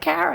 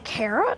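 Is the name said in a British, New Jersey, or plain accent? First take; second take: New Jersey; plain. First: It is said in a New Jersey accent. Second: It is said in a plain accent.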